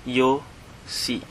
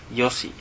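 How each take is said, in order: First: "Yo-si" split into two slow, separate syllables. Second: Said in the usual way. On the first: Shown as a demonstration. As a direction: break "Yo-si" apart, YO then SI. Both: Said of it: "is yosi".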